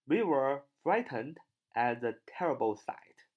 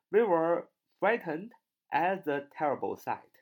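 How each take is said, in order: First: Said in the usual way. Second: Lifted second read of the example; higher repeat. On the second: Shown as a demonstration. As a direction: repeat higher and a bit louder. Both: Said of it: "比如说".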